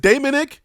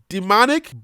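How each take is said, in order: First: The name begins with the sound of 'Damon'. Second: The name begins with the sound of 'demon'. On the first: "we spelled Damon, D A M O N ... So I think his name is Damonic" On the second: "the way that the translation wants me to pronounce it"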